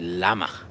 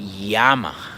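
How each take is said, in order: First: The word begins with a plain L sound. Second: The word begins with a Y-like sound. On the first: This is how English speakers say it. The speaker calls it wrong. "in English you say llama" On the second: This is how Spanish speakers say it. The speaker calls it right. "the pronunciation for this for this letter is eye. We say llama"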